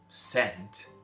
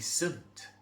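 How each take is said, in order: First: The syllable sounds like the word scent. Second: The syllable sounds like sunt, with a weak vowel. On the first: The speaker calls it wrong. "it's not scent" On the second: The speaker calls it right. "it'll be sunt"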